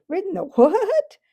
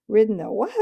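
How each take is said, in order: First: High, loud scoffing retort; contemptuous retort. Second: Neighing retort. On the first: Horse scoffing at the boy's donkey riding, contemptuous. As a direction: scoff at the very idea, as a proud horse. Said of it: "retorted the horse with extreme contempt". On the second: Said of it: "it came out as sort of a neigh". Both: Acted.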